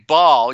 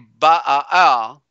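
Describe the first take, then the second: First: The word is said as one syllable. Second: The word is said as two syllables. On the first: The speaker calls it right. "you say Baal, you pronounce one A" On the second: The speaker calls it wrong. "you don't say Ba'al"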